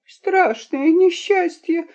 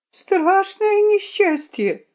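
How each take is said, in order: First: High, drawn-out mock wail; sobbing. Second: Very high, slower wail; sobbing. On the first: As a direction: wail slowly like a small boy. (высокий протяжный детский плач) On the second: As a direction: draw out the boy's wail even higher-pitched. (тонкий тягучий рёв мальчика) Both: A narrator's reading. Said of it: "зарыдал мальчуган".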